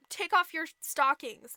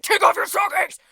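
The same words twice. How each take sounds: First: Said in the usual way. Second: Loud, high, insistent command; mock angry shout. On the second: Prince demands to see her foot, shouting. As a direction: bellow the demand, out of patience.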